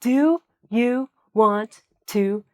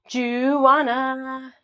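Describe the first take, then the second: First: Want to is said fully as two words. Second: Want to is blended into one word, wanna. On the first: The speaker calls it wrong. "And I don't say" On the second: The speaker calls it right. "So it's going to be sounding like this"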